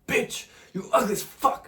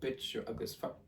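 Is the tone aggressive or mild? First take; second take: aggressive; mild. First: It is said aggressively. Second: It is said mildly.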